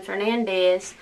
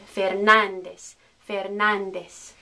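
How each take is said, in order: First: Fernandez as "fer-nan-DEZ"; misplaced stress. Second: Fernandez as "fehr-NAHN-des"; stress on NAN. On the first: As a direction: say Fernandez without punching NAN. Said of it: "instead of saying Fernandez". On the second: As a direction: put the weight on NAN in Fernandez. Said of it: "pronounce this syllable with stress". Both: Shown as a demonstration.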